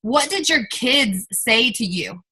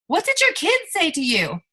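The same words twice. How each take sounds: First: Said in the usual way. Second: Put-on What did your kids say to you asked much higher, pleading; raised emotional repeat. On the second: Shown as a demonstration. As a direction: lift the whole question up, urging them to feel it. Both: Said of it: "repeated question, second raised".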